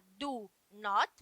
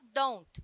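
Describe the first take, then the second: First: It is said as two separate full words. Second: It is said as one short contracted word. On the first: "Ao invés de falar do not" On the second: "você fala don't. ... É uma palavra só"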